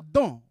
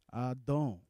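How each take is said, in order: First: The name is called out loudly and forcefully. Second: The name is called softly with a compassionate tone. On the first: "plus fort" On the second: "cette fois-ci d'une voix de compassion"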